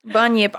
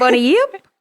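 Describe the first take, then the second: First: Said in the usual way. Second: "Bunny yip" as bunny plus a rising yip; bunny yip mispronunciation. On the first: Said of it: "I know that ain't it". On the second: Shown as a demonstration. Host guessing the name wrongly, "Bunny yip" as a rising question. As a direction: ask "Bunny yip" with yip lifted. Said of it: "I wanna say bunny ip".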